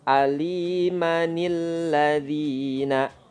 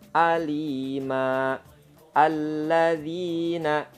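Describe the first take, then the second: First: The words are joined with an added 'nil' sound. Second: The words are read separately without an added nun. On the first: The words are connected in reading. "Jika diwasolkan" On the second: The words are not connected in reading. "Kalau tidak diwasolkan, biasa bacanya"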